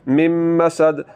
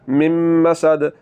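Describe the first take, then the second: The two takes are said the same way.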